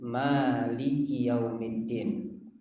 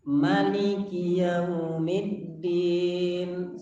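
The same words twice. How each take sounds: First: The first vowel 'ma' is held long. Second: The first vowel 'ma' is kept short. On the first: "ma-nya dibaca pan panjang" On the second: "ma-nya itu dibaca pendek"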